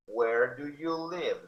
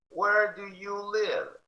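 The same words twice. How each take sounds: First: Where do you live slow, close to normal pitch; slow model. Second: Where do you live slow and much higher; slow high model. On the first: Teacher repeating for students, slow. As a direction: repeat it slowly. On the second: Teacher modelling for students, slow and high. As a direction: sing out the question slowly. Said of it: "model slow high". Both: Shown as a demonstration.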